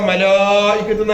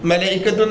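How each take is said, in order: First: The second vowel is drawn out long. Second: The second vowel is short. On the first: The speaker calls it right. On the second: The speaker calls it wrong.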